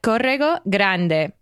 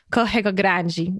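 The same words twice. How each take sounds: First: Corrego with a rolled Spanish R and Grande said "grande" ending in a plain D; Spanish-style Corrego Grande. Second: Corrego said "kohego" with the R as an H and Grande said "grandji"; Brazilian Corrego Grande. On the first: Retold or imitated. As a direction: read Corrego Grande as a Spanish speaker would. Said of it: "it looked to me like". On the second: Shown as a demonstration. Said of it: "it's pronounced".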